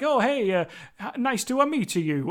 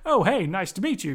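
First: It is said with an Italian accent. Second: It is said with an American accent.

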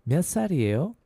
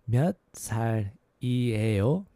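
First: It is said a little faster. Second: It is said at a normal, careful pace.

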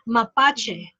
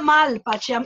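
First: No L sound comes before the P. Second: An L sound comes before the P. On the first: The speaker calls it right. "It's Mapache" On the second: The speaker calls it wrong. "It's not Malpache. I keep saying it wrong"

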